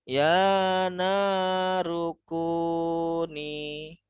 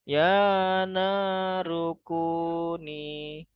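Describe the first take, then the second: Both takes have the same delivery.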